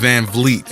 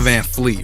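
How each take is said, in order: First: The surname starts with a V sound. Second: The surname starts with an F sound. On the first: The speaker calls it right. "It's Van Vliet actually" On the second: The speaker calls it wrong. "It's not Van Fleet"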